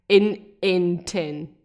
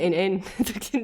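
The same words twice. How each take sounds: First: The phrase is said slowly. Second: The phrase is said quickly. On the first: "if I say it slow" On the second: "when you say it fast"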